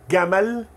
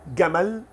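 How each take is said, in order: The two takes are said the same way.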